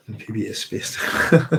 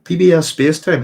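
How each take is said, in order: First: Reads the name through a giggle, slower; half-laughing as she reads it out. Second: Louder, higher, and stressed on B; calls the name out clearly to the chat. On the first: Reading chat name with a laugh. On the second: Repeats the name to check it. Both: Real, not acted.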